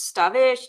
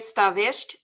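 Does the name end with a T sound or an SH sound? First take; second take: SH sound; T sound. First: The name ends with an SH sound. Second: The name ends with a T sound.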